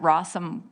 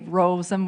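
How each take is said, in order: First: The O vowel is short. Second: The O vowel is long. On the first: The speaker calls it wrong. "sometimes I've had people pronounce it Rossum" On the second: The speaker calls it right. "I always like to say Rosem with a long O"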